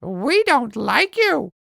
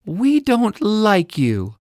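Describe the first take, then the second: First: High, slow parrot echo; parrot copying. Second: Put-on high, slow little-girl voice; girl's voice. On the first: Acted. Parrot copying Ella to tease her, high parrot voice. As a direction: parrot mimicking the girl word for word. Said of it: "Parrot repeats". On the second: Ella telling Parrot off, high slow girl voice. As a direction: say it slowly like a cross little girl. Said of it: "Ella says".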